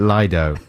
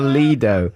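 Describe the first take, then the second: First: The first half does not sound like 'leader'. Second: The first half sounds like 'leader'. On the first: This is how some other people say it. "some people pronounce it Lido" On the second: It makes a pun on 'take me to your leader'. "for my purposes"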